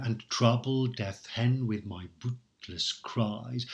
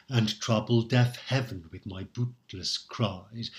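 First: "heaven" squeezed into one syllable, said "hen". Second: "heaven" given both syllables, hea-ven; heaven as two syllables. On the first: Teacher demonstrating "heaven" as one syllable in verse. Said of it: "I am reading heaven as one syllable here". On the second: Teacher showing the common two-syllable "heaven" reading. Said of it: "you will very often hear it read or recited as". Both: Shown as a demonstration.

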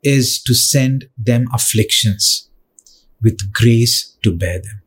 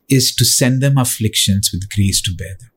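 First: Slow, deliberate, weighing each word; slow emphasis. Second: Said in the usual way. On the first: Shown as a demonstration. Preacher slowly impressing a verse on the church. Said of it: "preacher repeats line slowly". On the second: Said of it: "same line repeated at normal pace".

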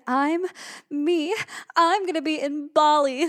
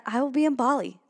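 First: Higher-pitched, emphatic and thrilled; excited repeat. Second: Said in the usual way. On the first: Real, not acted. Podcaster repeating her Bali news in disbelief, excited. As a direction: say it again, marveling that it's really you.

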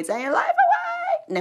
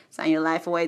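First: Very high, loud, drawn-out singsong; high mock squeal. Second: Lightly laughed, spoken warning; laughing mock warning. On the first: Joking about FBI contract, squealed mock warning. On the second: Joking about FBI contract, laughing spoken warning.

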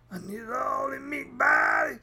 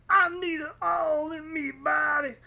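First: High put-on voice shouting BODY; hammed-up yell; mock shouted craving. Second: High, whining plea; hammed-up whiny plea; mock craving. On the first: Hammed-up craving, louder take. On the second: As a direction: beg like an addict in a silly voice.

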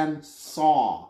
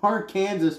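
First: Arkansas in separate syllables, ending in saw; Arkansas as Ar-kan-saw. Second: Arkansas said as Ar-KAN-zəs; Arkansas as spelled. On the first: Reading the law's required pronunciation, Arkansas ending in saw. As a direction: sound out Arkansas with a final SAW. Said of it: "Arkansas must be pronounced". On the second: Reading a dumb law to co-hosts, Arkansas said as Ar-Kansas. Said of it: "must be pronounced". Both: Shown as a demonstration.

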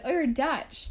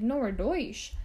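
First: "Dutch" with a short uh vowel, higher pitch; misheard as DUTCH. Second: "Deutsch" with an oy vowel, doych; German word DEUTSCH. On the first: People mishearing German settlers, mistaken "Dutch" with uh. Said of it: "People are like". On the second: German settlers correcting people, "Deutsch" said as doych. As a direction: correct them with "Deutsch", rhyming oy sound. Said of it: "Deutschland is the German word". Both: Retold or imitated.

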